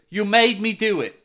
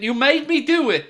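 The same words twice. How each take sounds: First: Second take leaning on "made" instead of "do"; stress on made. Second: "do" punched hard, high and loud; hammed-up "You made me do it" with the weight on "do"; stress on do. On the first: Pretend. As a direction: put the accusation on "made". Repeat, stress moved. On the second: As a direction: lean the blame onto "do". Mock blame, repeated with shifted stress.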